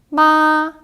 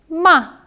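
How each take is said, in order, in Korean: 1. 음이 높고 평평하게 유지됩니다. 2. 음이 높은 데서 급하게 떨어집니다. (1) "일성은 굉장히 높은 쭉 곧게 뻗은 음이에요" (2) "사성은 어, 차, 뚝 떨어지는 소리입니다"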